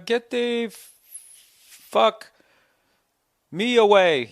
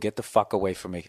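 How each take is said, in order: First: It is said hesitantly, stumbling over the words. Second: It is said forcefully, with strong feeling. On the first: The speaker calls it wrong. "You can't be like, uh, dude, uh" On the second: The speaker calls it right. "so you can say it with some feeling"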